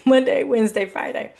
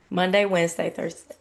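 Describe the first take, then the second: First: Monday louder with a laugh, Wednesday, Friday trailing off; laughing self-correction. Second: Said in the usual way. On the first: Real, not acted. Correcting her slip for viewers with a laugh. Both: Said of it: "I mean, excuse me".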